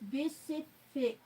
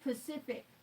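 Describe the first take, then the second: First: It begins with a B sound, drawn-out F. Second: It begins with a P sound, short F. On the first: The speaker calls it right. "Pacific with the B sound at the beginning" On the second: The speaker calls it wrong. "you would assume it's Pacific. That's not how you say it"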